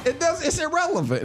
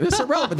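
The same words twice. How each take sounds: First: Laughing through the words. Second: Said in the usual way. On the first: Real, not acted. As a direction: brush it off with a chuckle. Laughing off the garbage touchdown.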